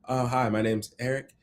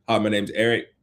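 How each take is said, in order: First: It is said in a timid, hesitant voice. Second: It is said in a confident, grounded voice.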